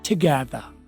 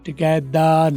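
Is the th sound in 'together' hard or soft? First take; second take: soft; hard. First: The th sounds like a soft voiced th. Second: The th sounds like a hard d. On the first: The speaker calls it right. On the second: The speaker calls it wrong. "टुगेदर नहीं"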